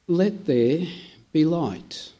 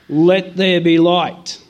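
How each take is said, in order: First: It is said gently, growing in intensity. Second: It is said as an abrupt, sharp command.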